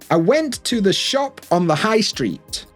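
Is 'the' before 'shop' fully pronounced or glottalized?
fully pronounced. The word 'the' is pronounced fully and clearly.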